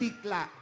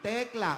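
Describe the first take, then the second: First: The first syllable is said as 'tik'. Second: The first syllable is said as 'tek'. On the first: The speaker calls it wrong. "Hindi tikla" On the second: The speaker calls it right.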